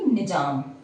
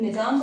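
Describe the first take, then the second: First: The middle consonant is a 'j' sound. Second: The middle consonant is a 'z' sound. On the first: The speaker calls it wrong. "ना कि निजाम" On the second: The speaker calls it right. "तो निज़ाम बोलेंगे"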